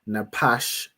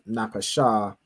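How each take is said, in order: First: The word ends on its final consonant. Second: The word ends with an added vowel sound. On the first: The speaker calls it right. "you know to pronounce this as Napash" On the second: The speaker calls it wrong. "instead of Napasha"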